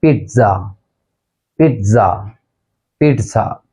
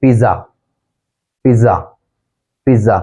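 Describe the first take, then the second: First: पिज़्ज़ा with a T, peet-sa; correct pronunciation. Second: पिज़्ज़ा with plain Z, pi-za; common mispronunciation. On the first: Teacher modelling the actual word, पिज़्ज़ा as peet-sa. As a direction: put a crisp "ts" inside पिज़्ज़ा. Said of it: "actual pronunciation है". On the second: Teacher showing the mistake, पिज़्ज़ा as pi-za. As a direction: say पिज़्ज़ा without any T sound. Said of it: "हम इसे कहते हैं". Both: Shown as a demonstration.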